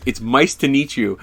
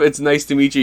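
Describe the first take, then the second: First: "mice" said with an m in place of "nice"; imitated slip, "mice" for "nice"; slip of the tongue. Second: Said in the usual way. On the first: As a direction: fumble the greeting as "mice to meet you". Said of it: "he goes". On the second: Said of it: "instead of".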